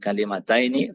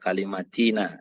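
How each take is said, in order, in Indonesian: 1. Kata itu berakhir dengan bunyi diftong 'aini'. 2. Kata itu berakhir dengan bunyi 'ina' yang pendek. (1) "Min kalimataini fa'aksara atau lebih" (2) "Jangan dibaca kalimatina ya"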